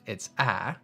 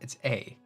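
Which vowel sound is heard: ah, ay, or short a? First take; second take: short a; ay. First: The vowel sounds like the short a sound. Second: The vowel sounds like the letter name ay. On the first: "as part of the word fast" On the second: "When you say it by yourself"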